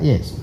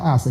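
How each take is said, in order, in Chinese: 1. 它听起来接近'yes'这个词。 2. 它有'ask'的美式开元音。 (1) "你们叫Yes" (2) "美国叫Ask"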